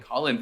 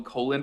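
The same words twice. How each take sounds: First: Said in the usual way. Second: "Colin" with a long O, like COE-lin; mispronounced Colin. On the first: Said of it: "All right, good". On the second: Shown as a demonstration. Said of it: "I swear I called him Colin for a second".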